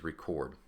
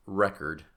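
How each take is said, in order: First: "record" as the verb, stressed on the second syllable. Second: "record" as the noun, stressed on the first syllable. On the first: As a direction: put the weight on the end of "record": reCORD. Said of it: "if we shift that accent to record". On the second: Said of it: "So we put the accent here for record". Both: Shown as a demonstration.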